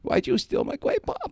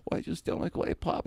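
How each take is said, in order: First: Much higher, squeaky cartoon Fudd accusation; Elmer Fudd voice. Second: Breathy, raised mock Fudd accusation; Elmer Fudd voice. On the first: [name] confronting Jimmy again, high squeaky Fudd voice. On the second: [name] confronting Jimmy over the pop, soft mock Fudd. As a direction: accuse him in a soft cartoonish voice. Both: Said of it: "Like that".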